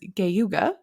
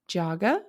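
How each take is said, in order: First: It begins with a hard G sound. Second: It begins with a J sound. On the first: The speaker calls it wrong. "I pronounced it incorrectly" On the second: The speaker calls it right. "It is pronounced Jaga"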